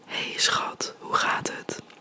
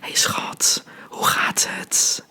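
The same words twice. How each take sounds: First: It is said in standard Dutch. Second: It is said with a wet Rotterdam T.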